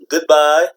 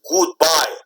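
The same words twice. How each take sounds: First: The first vowel is a short, relaxed sound. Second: The first vowel is a long 'ooh' sound. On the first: The speaker calls it right. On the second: The speaker calls it wrong.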